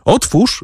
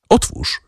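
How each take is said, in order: First: "Otwórz!" flung out high, a sharp command; calling out. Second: Breathy, almost voiceless plea of "Otwórz!"; "Otwórz!" pushed out on breath, low and soft; hushed call. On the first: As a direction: shout "Otwórz!" up at the door. (wysokie, rozkazujące „Otwórz!”) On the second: (ciche, bezdźwięczne „Otwórz!”) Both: A narrator's reading. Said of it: "zawołał".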